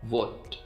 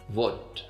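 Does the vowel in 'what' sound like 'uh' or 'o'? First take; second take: o; o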